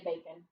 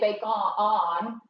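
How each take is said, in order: First: The second syllable has a reduced schwa vowel. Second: The second syllable has a full vowel. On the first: It is the usual everyday way. The speaker calls it right. "we usually just say bacon" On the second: It sounds fancy. The speaker calls it wrong. "We don't say bake on, unless you're fancy"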